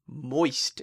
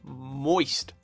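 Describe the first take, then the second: First: The M at the start is short. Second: The M at the start is drawn out.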